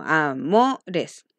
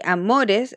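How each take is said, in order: First: "amores" broken up as a-MO-res, MO held; stress on the tonic syllable. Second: Said in the usual way. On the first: Shown as a demonstration. Teacher repeats the example for pupils, stressing MO in "amores". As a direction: lean on MO in "amores", setting each syllable apart. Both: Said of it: "es lo mismo".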